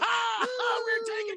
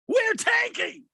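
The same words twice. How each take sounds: First: It is said in a happy tone. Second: It is said in an angry tone.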